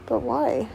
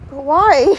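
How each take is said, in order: First: Quiet questioning. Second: Louder, pressing repeat of a question; insistent questioning. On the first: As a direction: ask it softly, almost under your breath. Repeated question, first quiet asking. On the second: Same question pressed again, louder. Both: Real, not acted.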